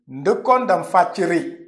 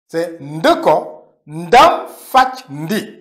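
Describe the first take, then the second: First: The last word ends in a reduced 'ri'. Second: The last word ends in a full 'ndi'. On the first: The speaker calls it wrong. "quand on parle rapidement, on entend la personne dire" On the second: The speaker calls it right. "il n'y a pas ri. C'est de kondam fachindi"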